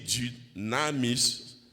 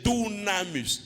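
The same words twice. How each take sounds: First: The first vowel is a front rounded French u. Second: The first vowel is a back rounded oo sound. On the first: The speaker calls it wrong. "je prononcer mon français" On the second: The speaker calls it right. "Le U en grec c'est le OU"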